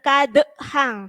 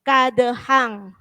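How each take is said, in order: First: An extra vowel sound follows the bounced consonant. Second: The bounced consonant ends with no added vowel. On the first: The speaker calls it wrong. "jangan kadehang" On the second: The speaker calls it right. "tapi kadehang"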